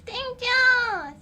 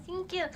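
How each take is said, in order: First: High cute thanks. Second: Said in the usual way. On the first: Pretend.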